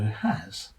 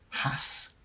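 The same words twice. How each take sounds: First: The word ends with a buzzing Z sound. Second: The word ends with a hissing S sound. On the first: "or to rhyme with daz, the S making a Z sound" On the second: "might be pronounced to rhyme with gas"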